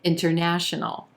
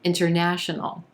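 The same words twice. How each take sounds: No difference in how they are said.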